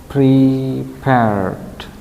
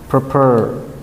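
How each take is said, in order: First: The word ends with a final d sound. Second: The word ends without a final d sound. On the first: The speaker calls it right. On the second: The speaker calls it wrong. "not prepare"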